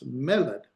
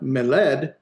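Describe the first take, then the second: First: The stress is on the first syllable. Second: The stress is on the second syllable. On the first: The speaker calls it right. "because the accent's here on the first, it's meled" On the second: The speaker calls it wrong. "not meled"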